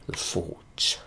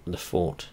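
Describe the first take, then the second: First: Whispered under the breath; softly whispered aside. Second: Said in the usual way. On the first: Shown as a demonstration. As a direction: breathe the name out, no voice. Repeats the name, whispered.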